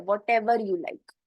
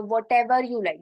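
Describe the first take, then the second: First: Whatever you like said very slowly and clearly; teacher slowing Whatever you like down for the class; slow model phrase. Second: Said in the usual way. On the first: Shown as a demonstration. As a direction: spell out Whatever you like word by word for learners.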